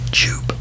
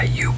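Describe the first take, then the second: First: The name begins with a J sound. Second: The name begins with a Y sound. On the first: The speaker calls it wrong. "a lot of people pronounce it Jupe" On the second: The speaker calls it right. "the J is pronounced as a Y"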